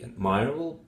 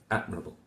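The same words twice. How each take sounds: First: "admirable" said as ad-MIRE-able; admirable, second syllable stressed like admire; incorrect stress. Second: "Admirable" with stress on Ad, falling; Admirable, first syllable stressed; correct stress. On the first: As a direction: lean wrongly on "mir" in admirable. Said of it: "that will be incorrect". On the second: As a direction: say Admirable as AD-mruh-bull. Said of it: "This one is the correct one". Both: Shown as a demonstration.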